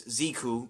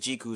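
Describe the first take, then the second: First: The name begins with a 'z' sound. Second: The name begins with a 'j' sound. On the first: "Americans would pronounce it as" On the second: "Japanese pronounce it as"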